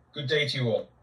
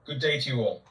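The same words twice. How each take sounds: The two takes are said the same way.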